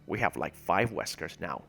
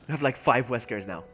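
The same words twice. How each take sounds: First: It is said in an impression of Wesker's voice. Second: It is said in his own normal voice.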